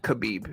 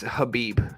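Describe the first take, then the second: First: The name begins with a K sound. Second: The name begins with a soft H sound. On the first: The speaker calls it wrong. "not Khabib. The K is silent" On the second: The speaker calls it right. "The way it's pronounced is Habib"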